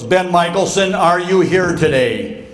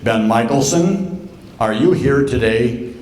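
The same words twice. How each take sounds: First: Lightly voiced professor pressing for an answer; insistent professor. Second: Lightly voiced professor calling the roll, drawn out; a hint of a lecture-hall roll call over a mic; professor on microphone. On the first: Professor calls on the hiding student, insistent retold roll call. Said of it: "And he goes". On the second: Professor calls on a student before the whole class, lightly acted roll call. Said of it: "great big microphone like this".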